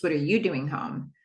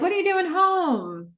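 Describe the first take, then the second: First: "you" lifted above a lower-pitched question; low-key return question stressing "you"; question thrown back. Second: Lifted, surprised-sounding query; high-pitched questioning quote. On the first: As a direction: turn it back, leaning on "you". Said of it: "he says". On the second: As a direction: ask it way up high, stretching "home". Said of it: "Cam's like". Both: Retold or imitated.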